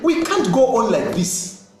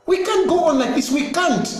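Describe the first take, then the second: First: Said in the usual way. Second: Urgent higher echo of the line; higher insistent repeat. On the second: Real, not acted. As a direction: say "We can't go on like this" again, pitched much higher, "can't" stressed.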